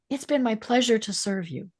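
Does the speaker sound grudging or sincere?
sincere. It sounds warm, sincere and genuinely pleased. The server truly enjoyed helping. "the meaning behind it is is what is different"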